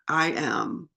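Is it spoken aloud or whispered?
aloud. It is spoken aloud in a normal voice.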